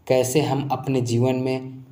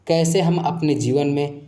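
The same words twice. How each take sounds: The two takes are said the same way.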